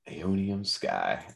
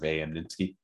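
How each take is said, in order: First: The name sounds like 'Aeonium Sky'. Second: The name sounds like 'A.M. Ninsky'. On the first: The speaker calls it right. "Rolls right off the tongue" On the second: The speaker calls it wrong. "we would say it wrong"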